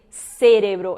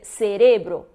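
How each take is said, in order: First: The stress is not on the middle syllable. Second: The stress is on the middle syllable. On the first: The speaker calls it wrong. "Não, não vou dizer cérebro" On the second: The speaker calls it right. "a pronúncia é cerebro, porque paroxítonos"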